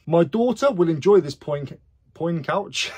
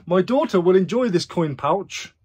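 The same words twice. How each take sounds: First: "coin pouch" slipped into "poin couch"; reading aloud and tripping into "poin couch"; tongue-tied misreading. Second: Said in the usual way. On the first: Real, not acted. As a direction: stumble on "poin-", then say "poin couch", first sounds swapped. Misreads coin pouch, laughs, rereads it.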